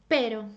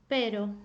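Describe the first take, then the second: The two takes are said the same way.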